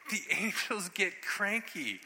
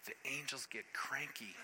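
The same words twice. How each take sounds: First: High, slow, drawn-out punchline; slow emphatic repeat, pitched up; emphatic warning. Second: Quiet, near-whispered punchline; hushed warning. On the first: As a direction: stretch it out with raised pitch. Repeats punchline emphatically after hush. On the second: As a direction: drop to a hush, as an ominous warning. Hushed punchline, then repeated louder. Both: Real, not acted.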